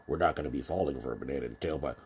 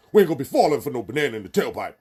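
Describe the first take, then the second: First: Fast, thin mock voice without bass; nasal weak voice. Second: Louder, higher, fast tough street voice; bass in your voice. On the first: Quoting Eddie Murphy's movie, fast thin voice with no bass. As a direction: squeak it out, no bass at all. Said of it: "in the famous movie". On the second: Retold or imitated. Eddie Murphy's movie line redone with bass, loud tough voice. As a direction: say it like a real brother, full force. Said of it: "put some bass in your voice".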